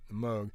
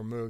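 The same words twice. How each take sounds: First: Moog said as "mohg"; long O in Moog; long-o pronunciation. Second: Moog said as "moog", with an oo; long OO in Moog; oo pronunciation. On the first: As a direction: say Moog to rhyme with vogue. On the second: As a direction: say Moog with the vowel of food. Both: Shown as a demonstration. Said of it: "I don't know how you say it".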